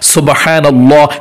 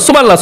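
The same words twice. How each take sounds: First: It is said slowly and carefully. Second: It is said fast and hurried.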